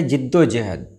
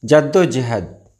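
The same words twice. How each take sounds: First: जिद्दोजहद starting "jid"; correct pronunciation. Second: जद्दोजहद starting "jad"; wrong pronunciation. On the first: Teacher giving viewers the right form, correctly pronounced. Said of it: "सही है". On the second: Teacher showing viewers the wrong form, mispronounced. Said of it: "ये गलत है". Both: Shown as a demonstration.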